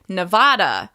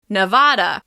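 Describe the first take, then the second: The two takes are said the same way.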